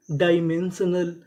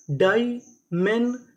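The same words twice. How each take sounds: First: Said in the usual way. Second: Loud, very slow "dimensional", each part apart; syllable by syllable. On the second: Shown as a demonstration. Teacher assembles the word for learners, slowly part by part. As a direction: break "dimensional" into separate beats with pauses.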